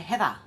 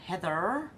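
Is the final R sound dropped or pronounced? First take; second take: dropped; pronounced. First: The word ends in an open vowel without R. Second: The word ends with an audible R sound.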